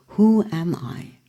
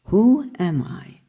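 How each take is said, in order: Both takes have the same delivery.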